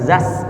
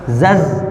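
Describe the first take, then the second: First: The final consonant is a hissing s sound. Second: The final consonant is a buzzing z sound. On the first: The speaker calls it wrong. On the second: The speaker calls it right.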